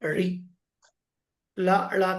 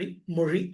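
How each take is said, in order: First: The consonant is a plain l sound. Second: The consonant is a retroflex zh sound. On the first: The speaker calls it wrong. "రి లా లా కాకుండా" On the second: The speaker calls it right. "రి మొഴി అని చదవాలి"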